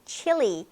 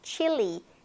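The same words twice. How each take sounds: Both takes have the same delivery.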